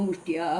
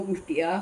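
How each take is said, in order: Both takes have the same delivery.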